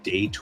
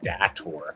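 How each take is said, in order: First: The first vowel sounds like the vowel in 'day'. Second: The first vowel sounds like the vowel in 'dad'. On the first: "Kind of like day, like day and night" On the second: "or da, like dad"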